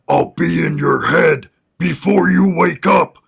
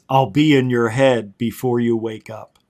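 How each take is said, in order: First: It is said in a disguised, imitated voice. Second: It is said in his normal voice.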